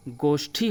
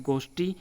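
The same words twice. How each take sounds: First: गोष्ठी with aspirated TH; aspirated retroflex in गोष्ठी; correct pronunciation. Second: गोष्ठी with unaspirated T; no puff on the T of गोष्ठी; incorrect pronunciation. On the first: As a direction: say गोष्ठी as "goshthi", puff after the T. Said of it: "गोष्ठी होता है". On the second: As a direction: say गोष्ठी as "gosti", dry retroflex T. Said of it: "ट और ठ संबंधी अशुद्धियाँ". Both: Shown as a demonstration.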